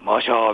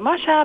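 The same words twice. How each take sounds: First: The cheer is shouted in a deep, rumbling voice. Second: The cheer is shouted in a high voice. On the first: An all-male crowd is cheering. "下からこう、突き上がってくるような" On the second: A mostly female crowd is cheering. "普通はマシャーって高い声なんですよ"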